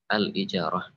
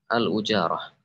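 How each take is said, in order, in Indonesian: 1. Vokal pertamanya adalah bunyi 'i'. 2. Vokal pertamanya adalah bunyi 'u'. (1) "yang lebih masyhur adalah dengan hamzah yang dikasrah" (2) "Bisa juga dibaca al-ujarah"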